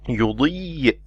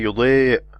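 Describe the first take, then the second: First: The long vowel is a clear 'ee' sound. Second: The long vowel sounds like 'ay'. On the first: The speaker calls it right. "You say" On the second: The speaker calls it wrong. "You don't say"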